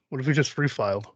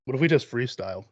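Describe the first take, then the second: First: Slushy cartoon lisp on "just freestyled"; Daffy Duck lisp. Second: Said in the usual way. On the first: Host suggesting a freestyle bit, Daffy Duck lisp. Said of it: "Let's Daffy Duck this shit".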